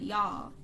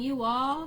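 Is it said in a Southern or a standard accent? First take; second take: Southern; standard. First: It is said in a Southern accent. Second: It is said in a standard accent.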